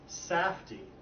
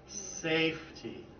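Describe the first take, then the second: First: The first vowel is a short A sound. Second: The first vowel is a long A sound. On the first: The speaker calls it wrong. "Short A" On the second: The speaker calls it right. "that makes the A long"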